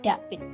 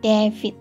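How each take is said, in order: First: The name is said with a Javanese accent, no V. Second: The name is said with English letter sounds. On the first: "Malas bilang V, David menjadi David" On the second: "Abjad bahasa Inggris"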